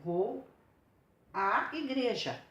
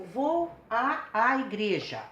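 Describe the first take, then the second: First: À said once, slowly, before igreja; one fused vowel. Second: À, à said as two distinct stressed vowels before igreja; two separate vowels. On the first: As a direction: give a single drawn-out à in vou à igreja. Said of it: "que vai indicar essa fusão". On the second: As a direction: split the fused à into a + a, each punched. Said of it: "A preposição mais a artigo feminino". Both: Shown as a demonstration.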